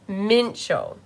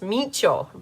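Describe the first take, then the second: First: The name is pronounced in an English way. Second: The name is pronounced in a Spanish way. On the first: The speaker calls it right. "It's Mincho. M I N C H O" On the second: The speaker calls it wrong. "I was saying it like it was Spanish"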